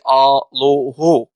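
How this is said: Syriac dialect, said with a final -u vowel.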